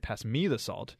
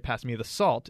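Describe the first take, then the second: First: The word me is given emphasis. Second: The word salt is given emphasis. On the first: The salt should go to the speaker, not someone else. "it means don't pass it to Matt" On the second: The salt is wanted, not another item. "it means don't pass me the pepper"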